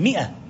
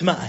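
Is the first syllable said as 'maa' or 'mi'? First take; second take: mi; maa. First: The first syllable is a short 'mi' sound. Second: The first syllable is a long 'maa' sound. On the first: The speaker calls it right. "هي مئة" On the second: The speaker calls it wrong. "بعض الناس ينطقها ماء، هي ليست ماء"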